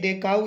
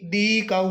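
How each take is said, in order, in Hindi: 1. 'The' का उच्चारण छोटे 'thuh' स्वर के साथ होता है। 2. 'The' का उच्चारण 'thee' स्वर के साथ होता है। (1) "सामान्यतः इसका उच्चारण होता है दे" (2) "दी काउ नहीं बोलेंगे"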